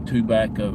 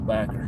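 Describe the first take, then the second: First: The word is said in full, three syllables. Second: The first syllable is dropped, leaving two syllables. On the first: This is the standard form most people use. "I don't say tobacco" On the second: This is the local country way of saying it. "I just take the T and the O off the front of it"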